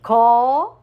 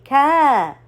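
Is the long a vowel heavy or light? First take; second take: heavy; light. First: The long a vowel sounds heavy and deep. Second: The long a vowel sounds light and thin. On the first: The speaker calls it wrong. "I don't say ka. No, no, no, no, no. That's not correct" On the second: The speaker calls it right. "So the follower alif must be light too"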